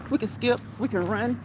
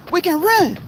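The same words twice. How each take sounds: First: Said in the usual way. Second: Excited. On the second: Real, not acted. Lists exercises while walking.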